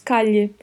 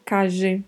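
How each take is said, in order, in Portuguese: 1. O duplo L soa como o lh do português. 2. O duplo L soa como o s de measure. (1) "Pode ter som de LH" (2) "Pode ter som de J"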